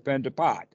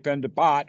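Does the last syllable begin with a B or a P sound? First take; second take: P; B. First: The last syllable begins with a P sound. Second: The last syllable begins with a B sound. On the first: "but it also can be said with a P" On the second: "sometimes they pronounce it with a B rather than a P"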